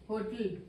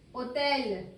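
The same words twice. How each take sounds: First: Said in the usual way. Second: Hotel said the French way, silent h, otel. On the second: Shown as a demonstration. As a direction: drop the h: Hotel as otel, stress at the end.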